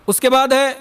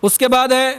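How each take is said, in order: Both takes have the same delivery.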